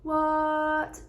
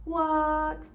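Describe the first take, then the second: First: The pitch stays high and level. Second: The same.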